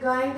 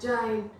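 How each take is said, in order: First: The word begins with a hard g sound. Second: The word begins with a soft j sound. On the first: The speaker calls it wrong. "गाइंट नहीं बोल रहे हैं" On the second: The speaker calls it right. "हम इसको ज pronounce कर रहे हैं"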